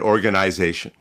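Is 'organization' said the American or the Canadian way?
Canadian. It is said in a Canadian accent. "I was able to spot a Canadian because they said"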